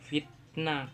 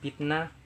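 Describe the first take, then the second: First: The word begins with an f sound. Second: The word begins with a p sound. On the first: The speaker is educated. "kelompok penutur yang berpendidikan" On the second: The speaker is not educated. "Penutur yang tidak berpendidikan memungkinkan akan mengucapkan"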